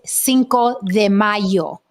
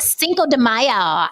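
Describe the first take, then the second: First: It is said with a Spanish-style pronunciation. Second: It is said with an English-style pronunciation. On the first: The speaker calls it right. "It is Cinco de Mayo" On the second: The speaker calls it wrong.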